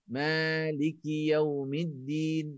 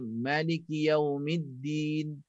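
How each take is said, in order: First: The first vowel is held long. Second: The first vowel is kept short. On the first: It follows the reading commonly used locally. "ma dua harakat" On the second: It follows a different recognized reading tradition. "itu riwayat lain"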